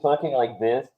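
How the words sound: The voice sounds muffled and hollow, like in a cave. The speaker calls it wrong.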